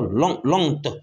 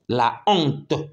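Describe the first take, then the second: First: The article's vowel is dropped before honte. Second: The article's vowel is kept before honte. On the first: The speaker calls it wrong. "on ne peut pas barrer A, mettre apostrophe et lire l'honte. Non, ça ne marche pas" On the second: The speaker calls it right. "il n'y aura pas l'élision"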